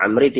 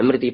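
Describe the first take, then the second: First: The name begins with an a vowel. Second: The name begins with an i vowel. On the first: "Dibaca ada fathah" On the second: "ada yang membaca kasroh"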